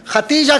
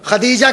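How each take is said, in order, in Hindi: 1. बीच का व्यंजन t है। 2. बीच का व्यंजन नरम d है। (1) "ये बिल्कुल आमियाना है" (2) "अगर गलतुल आम भी है तो खदीजा कहते हैं"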